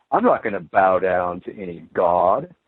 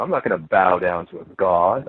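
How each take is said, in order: First: Lower, scoffing imitation of a proud unbeliever; lightly mock a smug refusal; a hint of sneering defiance; mock defiant skeptic. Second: Lower, smug imitation of a New Ager; a hint of lofty self-assurance; mock New Age voice. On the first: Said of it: "we're taught that that's absolutely stupid". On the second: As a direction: lightly parody a proud refusal. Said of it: "you hear people in the New Age".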